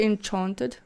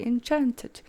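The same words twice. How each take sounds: First: "enchanted" as en-CHAHN-ted, broad ah; Afrikaans-style enchanted. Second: "enchanted" as en-CHAN-ted, a as in cat; soft "enchanted" with a short front a; her English enchanted. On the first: Vlogger quoting her own slip, Afrikaans-style pronunciation. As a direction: open up the middle of "enchanted" to ah. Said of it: "that's not my accent". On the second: Vlogger correcting her slip to viewers, English-style pronunciation. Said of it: "I say enchanted". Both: Shown as a demonstration.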